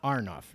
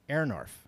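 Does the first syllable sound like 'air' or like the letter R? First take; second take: R; air. First: The first syllable sounds like the letter R. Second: The first syllable sounds like 'air'. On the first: The speaker calls it wrong. "not R" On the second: The speaker calls it right. "is pronounced air"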